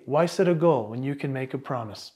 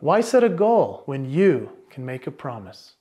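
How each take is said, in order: First: It is rushed through without any pauses. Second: It is paced slowly with pauses that let it sit. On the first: The speaker calls it wrong. "Rather than, hey" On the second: The speaker calls it right. "listen what happens when I add in the pausing"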